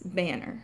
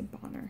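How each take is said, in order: First: It is said in an American accent. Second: It is said in an Irish accent. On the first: "with our American accents, ... We tend to say banner" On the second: "they would say bonner with the Irish accent"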